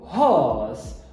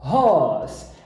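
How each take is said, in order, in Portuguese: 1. O r é omitido e a vogal é alongada. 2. O r é omitido e a vogal é alongada.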